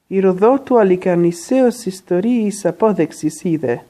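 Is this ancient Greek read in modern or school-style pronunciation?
modern. It is read in modern Greek pronunciation. "modern modern pronunciation"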